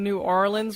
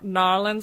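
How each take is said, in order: First: The name is said fully, in standard style. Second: The name is squeezed short, in local style.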